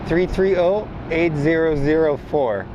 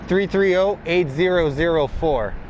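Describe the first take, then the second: No difference in how they are said.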